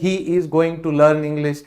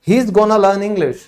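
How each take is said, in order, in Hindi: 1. 'Going to' को दो पूरे शब्दों की तरह बोला जाता है। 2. 'Going to' एक छोटे शब्द जैसा बोला जाता है। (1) "आप कभी नहीं सुनोगे" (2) "तो he is gonna learn English"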